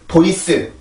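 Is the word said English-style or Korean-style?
Korean. It is read as even Korean syllables. The speaker calls it wrong. "보이스 이건 아닙니다"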